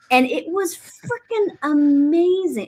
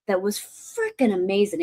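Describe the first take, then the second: First: "frickin' amazing" said higher, louder and slower; drawn-out, lifted "frickin' amazing"; emphatic praise. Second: Said in the usual way. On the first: Real, not acted. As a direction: lean hard on "frickin' amazing". Repeats praise with more force.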